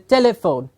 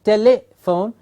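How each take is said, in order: First: The word contains a short i sound. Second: The word contains a short i sound.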